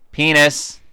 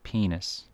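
First: The word is said loudly. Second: The word is said quietly.

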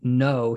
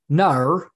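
First: The word is said in a plain accent. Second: The word is said in an Australian accent. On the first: "instead of saying no" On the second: "he says no like an Australian"

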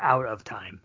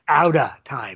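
First: The words 'out of' are said in full. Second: The words 'out of' are reduced to 'outta'. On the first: The speaker calls it wrong. "not Out of Time" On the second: The speaker calls it right. "O U T T A Time"

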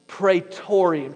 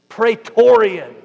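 First: The word is said in a plain, neutral way. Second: The word is said with a tense, angsty edge. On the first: "Say that with me" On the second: "say it with a little angst"

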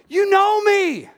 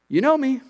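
First: It is said loudly as a passionate yell. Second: It is said calmly at an ordinary volume. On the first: The speaker calls it right. "This is a passionate yell" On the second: The speaker calls it wrong. "Jesus isn't saying"

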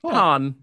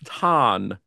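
First: The vowel is the 'o' sound of 'ton'. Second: The vowel is the open 'a' of 'tan'. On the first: The speaker calls it wrong. "You could say like Ton" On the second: The speaker calls it right. "With an N tan"

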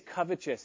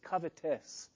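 First: The middle consonant sounds like 'ch', as in righteous. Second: The middle consonant is a plain 't' sound. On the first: The speaker calls it wrong. "I always say covetous, ... because righteous, you know, it's just in there" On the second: The speaker calls it right. "someone always comes up and says, it's covetous"

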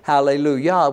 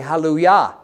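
First: The word has an English pronunciation. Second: The word has a Hebrew pronunciation. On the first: "in Hebrew we don't say" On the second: "we say"

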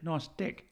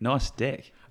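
First: It is said in a New Zealand accent. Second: It is said in a standard accent. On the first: "I was practicing my New Zealand accent" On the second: "I mean"

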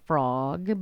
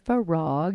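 First: The name is said as one syllable. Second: The name is said as two syllables. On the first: The speaker calls it wrong. "not frog" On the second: The speaker calls it right. "but Farag"

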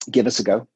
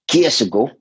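First: The phrase is said clearly in a standard accent. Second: The phrase is run together in a Glaswegian accent.

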